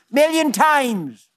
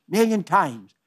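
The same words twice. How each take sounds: First: "Million" lifted high and stretched slow; emphatic exclamation. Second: Said in the usual way. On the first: Real, not acted. Preacher assures the congregation God forgives endlessly, emphatic high slow "Million". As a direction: proclaim "Million times" high and slowly, hitting "Million".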